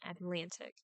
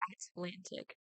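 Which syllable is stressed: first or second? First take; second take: second; first. First: The stress is on the second syllable. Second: The stress is on the first syllable. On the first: The speaker calls it right. "lan in Atlantic" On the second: The speaker calls it wrong. "We don't say banana or Atlantic"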